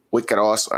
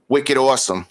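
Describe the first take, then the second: First: "wicked awesome" in a lightly done Boston accent, r dropped in "awesome"; a self-admittedly bad Boston accent on "wicked"; weak Boston accent. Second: Said in the usual way. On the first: Shown as a demonstration. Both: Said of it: "I don't do the Boston accent very well".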